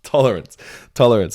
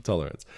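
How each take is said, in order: First: "Tolerance" burst out loud and high, falling; eureka exclamation. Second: Said in the usual way. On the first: Real, not acted. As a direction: shout "Tolerance" as the word clicks. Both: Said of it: "That's the word I was thinking of".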